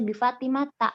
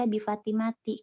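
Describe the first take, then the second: First: The name ends with an a vowel. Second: The name ends with an i vowel. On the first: The speaker calls it right. "maka dibaca" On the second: The speaker calls it wrong. "enggak dibaca"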